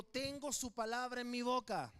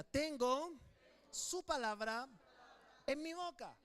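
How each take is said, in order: First: Said in the usual way. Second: Loud, believing declaration; louder, full-faith proclamation; said with conviction. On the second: Shown as a demonstration. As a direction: proclaim it like you truly believe it. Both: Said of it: "pero ahora dígalo creyendo".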